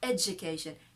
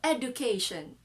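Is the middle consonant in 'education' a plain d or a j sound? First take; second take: j; d. First: The middle consonant is a j sound. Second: The middle consonant is a plain d sound. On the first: The speaker calls it right. "It's a J sound" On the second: The speaker calls it wrong. "they read it as d, not j sound"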